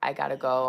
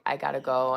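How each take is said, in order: First: The words run together in a reduced form. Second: The words run together in a reduced form.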